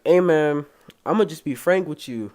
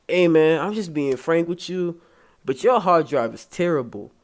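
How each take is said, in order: First: Said in the usual way. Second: Lightly put-on Hispanic accent; imitated Hispanic accent. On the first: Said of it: "I don't wanna do no accent". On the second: Computer repair guy being frank with customer, imitated Hispanic accent. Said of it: "I'ma do an accent".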